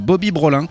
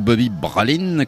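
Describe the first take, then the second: First: The name is said with a French pronunciation. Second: The name is said with a local foreign pronunciation.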